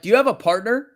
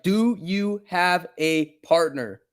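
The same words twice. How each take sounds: First: Higher and louder, a quick rising question; quick retold question. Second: Slow, spelled-out repeat with a falling tune; slow deliberate repeat. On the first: Streamer first asks the rude paramedic, quick and rising. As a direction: toss it off fast with a rising tune. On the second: Retold or imitated. Streamer repeats it slowly to the paramedic, menacing. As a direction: say it again slowly, word by word, as a veiled threat.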